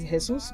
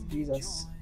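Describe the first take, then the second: First: Pronounced the way the man says his own name. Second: Pronounced the way the written spelling suggests. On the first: "So he says Jesus" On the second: "but it's written as Jesus"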